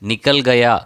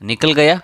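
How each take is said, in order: First: It is said plainly, without a rise at the end. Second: The voice is pressed and raised at the end. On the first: He has left. "நீங்கள் இதை சாதாரணமாக சொன்னால்" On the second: It asks whether the person has left. "இப்படி question மாதிரி கேட்கும்போது"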